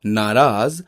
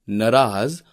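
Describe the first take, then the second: First: नाराज with long first aa; correct vowel length. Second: नाराज with short first a; wrong vowel length. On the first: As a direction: draw out 'naa' in नाराज. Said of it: "शुद्ध शब्द है". (नाराज में लंबा 'ना') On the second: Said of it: "अशुद्ध शब्द है". (नाराज को 'नराज' बोलना) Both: Shown as a demonstration.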